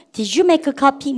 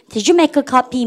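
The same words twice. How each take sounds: First: Very slow, every word spelled out; slow model sentence. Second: Said in the usual way. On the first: Shown as a demonstration. Teacher models for repeating class, very slow. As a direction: drag it out for students to follow. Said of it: "다시 해보세요". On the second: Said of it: "넣어서 같이 해보세요".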